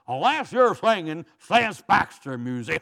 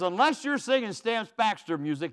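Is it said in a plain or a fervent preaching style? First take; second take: preaching; plain. First: It is said in a fervent preaching cadence. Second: It is said in a plain, even speaking voice. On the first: "Now he would say it this way" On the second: "who says"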